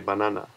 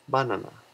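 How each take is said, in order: First: Banana is said with a non-Japanese pronunciation. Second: Banana is said with a Japanese pronunciation. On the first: "I said yesterday banana, right, which is a little bit different" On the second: "if you do pronounce banana in Japanese, it would be banana"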